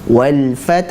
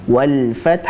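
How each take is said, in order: No difference in how they are said.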